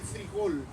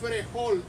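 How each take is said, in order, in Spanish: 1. La primera vocal es un sonido i. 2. La primera vocal es un sonido e. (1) "Di frijol" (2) "No digas frejol"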